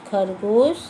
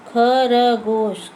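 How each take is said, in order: First: Said in the usual way. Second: खरगोश stretched very slowly, syllable by syllable; drawn-out demo. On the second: Shown as a demonstration. Teacher sounding out खरगोश slowly for pupils. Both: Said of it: "ज पे ओ की मात्रा".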